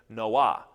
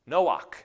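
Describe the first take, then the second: First: The name ends in a soft, breathy h sound. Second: The name ends in a guttural, throaty h sound. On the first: It is the woman's name. "This is a soft H" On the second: It is the man's name. "he had a het at the end of his name"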